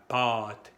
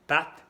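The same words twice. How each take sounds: First: "pot" with a long, rounded back A; rounder A. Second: "pat" with a short, unrounded A; short open A. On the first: Teacher modelling circumflex for learners, long round A in "pot". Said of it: "A, pero más redonda". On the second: Teacher showing the contrasting word, short A in "pat". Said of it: "si dicen pat". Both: Shown as a demonstration.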